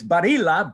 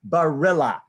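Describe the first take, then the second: First: The name is said with an Italian pronunciation. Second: The name is said with an American pronunciation. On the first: "So in Italian, it's Barilla" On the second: "but Americanized, it's John Barilla"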